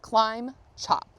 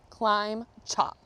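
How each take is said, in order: Both takes have the same delivery.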